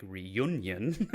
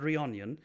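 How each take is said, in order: First: Said in the usual way. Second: "reunion" said as ree-ON-yun; "reunion" with an ON sound for the U; mispronounced reunion. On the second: Shown as a demonstration. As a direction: make the middle of "reunion" sound like "onion". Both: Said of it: "not reunion".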